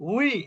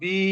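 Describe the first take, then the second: First: The syllable begins with a rounded w sound. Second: The syllable begins with a b sound. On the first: The speaker calls it right. "উচ্চারণটা যদি আপনি হার্ডলি করেন উই, ... তাহলে কিন্তু হয়ে গেল" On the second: The speaker calls it wrong. "যদি এভাবে বলেন ওয়াওজের বি, ... মানুষ ধরবে"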